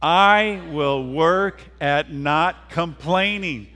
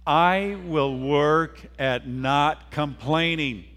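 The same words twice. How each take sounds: First: Loud, slow rallying recitation; drawn-out pledge at raised volume; emphatic pledge. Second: Slow, measured pledge for others to join; deliberate, drawn-out recitation at moderate volume; congregational pledge. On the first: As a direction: lead the crowd forcefully, word by word. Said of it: "we gotta do that again". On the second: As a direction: lead the group word by word. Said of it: "Will you say that with me?". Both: Shown as a demonstration.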